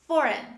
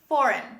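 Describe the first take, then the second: No difference in how they are said.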